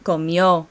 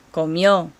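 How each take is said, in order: First: Comió, final ó stressed and falling; teacher model, comió; stress on the end. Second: Comió with stress on the final ó, falling; comió, accent on ó; stress on the end. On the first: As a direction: land firmly on the ó of Comió. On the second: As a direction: say Comió with the weight on the last syllable. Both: Shown as a demonstration. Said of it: "Do you hear the accent on the end?".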